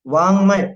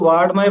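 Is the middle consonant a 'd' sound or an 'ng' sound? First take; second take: ng; d. First: The middle consonant is a nasal 'ng' sound. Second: The middle consonant is a 'd' sound. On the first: The speaker calls it right. "वांग्मय बोला जाता है उसको" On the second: The speaker calls it wrong. "बहुत से इसको वाड्मय बोलते हैं"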